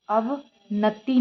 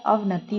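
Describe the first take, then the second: First: "अवनति" slow, split "ava-natti"; wrong form. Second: "अवनति" quick, as "av-nati"; correct form. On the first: Teacher rejects the mistake, slow split "अवनति". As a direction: drag "अवनति" apart. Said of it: "नहीं होता है". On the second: Teacher gives the correction, joined "अवनति". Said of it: "होता है". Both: Shown as a demonstration.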